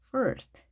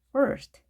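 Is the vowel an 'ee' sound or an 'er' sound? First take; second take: er; er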